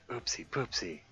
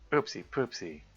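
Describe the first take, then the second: First: It is said in a whisper. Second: It is said very loudly.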